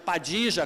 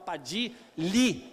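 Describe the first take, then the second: First: The name is said with a Rioplatense Spanish sound. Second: The name is said with a Mexican Spanish sound. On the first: "como se fala no Uruguai e na Argentina" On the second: "e no México ... falam Padili"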